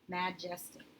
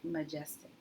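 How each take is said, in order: First: The first vowel is a short a sound. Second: The first vowel is a reduced uh sound. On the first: The speaker calls it wrong. "That would change this to a closed syllable" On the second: The speaker calls it right. "I'm going to mark that as a schwa syllable"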